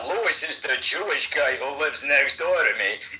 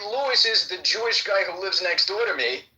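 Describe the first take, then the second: First: It is said in a scornful, disparaging tone. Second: It is said in a plain, neutral tone. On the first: "it can mean something different" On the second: It is a simple statement of fact. "and it means one thing"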